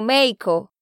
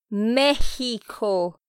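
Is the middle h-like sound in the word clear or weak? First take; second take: weak; clear. First: The middle h-like sound is weak and rushed. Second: The middle h-like sound is clearly pronounced. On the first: The speaker calls it wrong. "si lo dices muy rápido, suena como México" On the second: The speaker calls it right. "Debes decir México. Tienes que hacerlo sonar"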